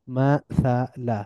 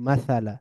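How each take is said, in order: First: মাসালা slowly as ma, tha, la; syllable by syllable. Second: মাসালা as one joined word, ma-tha-la; blended together. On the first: Teacher breaking down the word, মাসালা syllable by syllable. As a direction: split মাসালা into three drawn-out syllables. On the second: Teacher reading joined-up, মাসালা blended into one word. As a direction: run মাসালা together with a fall. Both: Shown as a demonstration. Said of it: "একটু মিলিয়ে মিলিয়ে পড়ব".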